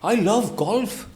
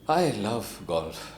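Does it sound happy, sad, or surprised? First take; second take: surprised; sad. First: It is said in a surprised way. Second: It is said in a sad way.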